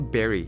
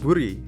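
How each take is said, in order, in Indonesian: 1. Vokal pertama bunyinya 'e'. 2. Vokal pertama bunyinya 'oo'. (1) "ini bacanya berry" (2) "itu salah"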